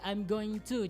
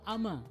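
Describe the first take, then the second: First: Every word is said separately in full. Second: The whole phrase is squeezed into two syllables.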